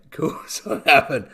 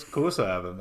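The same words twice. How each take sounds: First: Louder, higher insistent repeat; mock-indignant emphasis; emphatic repeat. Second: Said in the usual way. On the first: Real, not acted. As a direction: lean into it the second time.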